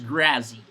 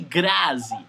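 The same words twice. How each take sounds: First: The name has an English pronunciation. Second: The name has a Portuguese pronunciation. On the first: "in English is Grazi" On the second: "E aí"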